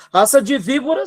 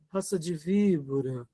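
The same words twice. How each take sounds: First: "raça de víbora" thrown out high and loud; forceful rebuke. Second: Soft, sweet "Raça de víbora", said gently; com doçura. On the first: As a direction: denounce them: "raça de víbora". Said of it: "você tem que bater na mesa". ("raça de víbora" com força, em tom de denúncia) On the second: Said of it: "com doçura". ("Raça de víbora" dito com doçura, baixinho) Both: Shown as a demonstration.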